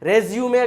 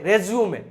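The two takes are said the same way.

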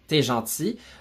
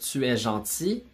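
First: 'Tu es' is squeezed into one syllable. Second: Both syllables of 'tu es' are fully pronounced. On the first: "On va souvent dire t'es" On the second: "au lieu de dire tu es gentil"

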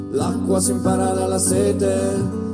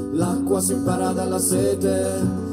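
The two takes are said the same way.

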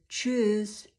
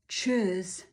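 Both takes have the same delivery.

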